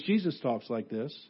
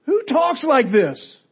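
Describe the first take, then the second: First: Low, soft, matter-of-fact reply; quiet answer. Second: High, loud, slow incredulous question; outraged disbelief. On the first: Real, not acted. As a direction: drop the voice right down to answer. Quiet answer to shouted question. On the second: Acted. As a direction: demand it as an appalled crowd would. Acts the incredulous crowd.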